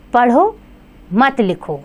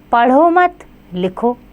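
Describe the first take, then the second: First: पढ़ो held apart, a clear pause, then मत लिखो falling; pause after पढ़ो. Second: पढ़ो मत run together, a pause, then लिखो; pause after मत. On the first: Teacher showing children how punctuation changes meaning, pause right after पढ़ो. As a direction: break after पढ़ो, keep मत लिखो together. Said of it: "गलत प्रयोग से कभी-कभी अर्थ बदल जाता है". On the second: Teacher showing children the changed meaning, pause right after मत. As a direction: join पढ़ो मत and break before लिखो. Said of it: "विराम चिन्हों के प्रयोग से कैसे वाक्यों का अर्थ बदल". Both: Shown as a demonstration.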